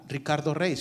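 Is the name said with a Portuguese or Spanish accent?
Spanish. The name is said with a Spanish accent. "o no diría"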